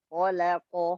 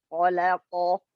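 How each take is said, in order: No difference in how they are said.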